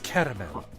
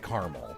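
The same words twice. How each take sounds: First: The word is said with three syllables. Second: The word is said with two syllables.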